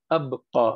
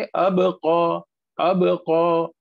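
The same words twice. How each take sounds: First: अबक़ा with b closed straight into qa; no bounce on the b of अबक़ा; without qalqalah. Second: अबक़ा drawn out with a short echo after b; qalqalah bounce. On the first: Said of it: "इसे हम ऐसे नहीं पढ़ेंगे". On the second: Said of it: "पढ़ेंगे". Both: Shown as a demonstration.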